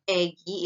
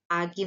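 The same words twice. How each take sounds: First: "egi" with the first a fronted to e; vowel change. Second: Said in the usual way. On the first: Shown as a demonstration. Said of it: "agi menjadi egi". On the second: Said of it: "menjadi egi".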